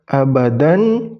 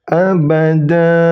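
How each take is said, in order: First: The word ends with a short vowel and n. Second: The word ends with a lengthened vowel, no n. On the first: The speaker calls it wrong. "ketika diwakafkan bukan lagi dibaca abadan" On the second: The speaker calls it right. "tapi abada, dipanjangkan dua harokat"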